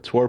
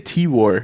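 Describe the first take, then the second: First: The name is said as one word, like tour. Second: The name is said as T plus war. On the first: "Tour podcast?" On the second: "why do we say T War?"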